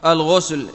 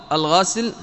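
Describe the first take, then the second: First: الغسل said "al-ghusl", with u; damma on the ghayn. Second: الغسل said "al-ghasl", with a; fatha on the ghayn. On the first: Teacher showing the word's vowelling, الغسل as "al-ghusl". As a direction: say الغسل with a rounded u after gh. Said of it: "بضم الغين". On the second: Teacher showing the other vowelling, الغسل as "al-ghasl". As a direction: say الغسل with an open a after gh. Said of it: "وبفتحها". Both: Shown as a demonstration.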